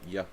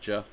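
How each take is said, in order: First: It begins with a Y sound. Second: It begins with a J sound. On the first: This is how it is said in Europe. "If I'm in, in Europe, it's Ya" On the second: This is how it is said in the US. "If I'm in the U S, it is Ja"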